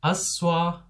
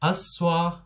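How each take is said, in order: First: It is shortened to two syllables. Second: The same.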